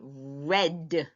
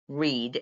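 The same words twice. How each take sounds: First: It is said with the past-tense pronunciation. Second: It is said with the future-tense pronunciation. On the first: The action is in the past. "if you're going to use it in the past, you're going to say read" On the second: The action is in the future. "In the future, it says read"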